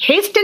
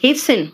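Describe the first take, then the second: First: Hasten said "hes-ten" with audible T; T wrongly sounded. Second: Hasten said "hes-sen"; silent T. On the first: Teacher showing pupils the mistake, Hasten with T sounded. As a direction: sound the T in Hasten, pitched higher. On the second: Teacher correcting pupils, hasten with the T silent. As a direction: skip the T in hasten. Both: Shown as a demonstration. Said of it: "Hasten नहीं बेटा".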